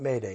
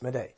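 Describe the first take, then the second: First: The name sounds like the word 'Mayday'. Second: The name does not sound like 'Mayday'. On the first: The speaker calls it wrong. "It's not Mayday" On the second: The speaker calls it right. "It's Madej"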